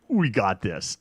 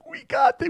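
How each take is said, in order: First: Said in the usual way. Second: Way up high, giddy with confidence; "We got this" squealed very high and giddy; high-pitched cocky cheer; squeaky overexcited boast. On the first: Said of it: "and I'm like". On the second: Retold or imitated.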